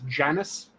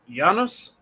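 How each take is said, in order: First: The name is said with an English pronunciation. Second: The name is said with a Latin pronunciation. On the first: The speaker calls it wrong. "You might be familiar with it as" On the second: The speaker calls it right. "I'm using the more correct Latinate pronunciation"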